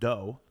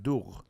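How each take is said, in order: First: The word ends in a plain vowel sound. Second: The word ends in a throaty gh consonant. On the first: The speaker calls it right. "if she didn't know how to pronounce dough" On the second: The speaker calls it wrong. "she would pronounce it dough because we use G H"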